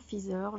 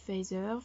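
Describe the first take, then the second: First: Feather said as "FEE-zer", rising; second guess. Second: Feather said as "FAY-zer", rising; unsure pronunciation. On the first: Unsure of the English title, Feather as "fee-zeur". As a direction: try Feather with "ee" and a French z. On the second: Guessing at the English title, Feather as "fay-zeur". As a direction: try Feather with "ay" and a French z. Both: Real, not acted. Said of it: "je n'en sais rien".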